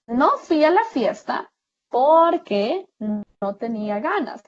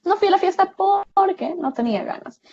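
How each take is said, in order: First: Slow, deliberate dictation of the example sentence; slow example read. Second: Fast, higher run-through of the sentence; quick example read. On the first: Teacher slowly reading an example sentence to students. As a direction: read it out slowly, leaning on porque. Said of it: "Tenemos los ejemplos". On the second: Teacher quickly repeating the example sentence for the students. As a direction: rattle off the sentence quickly in one breath. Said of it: "Ese porque es un conector". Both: Shown as a demonstration.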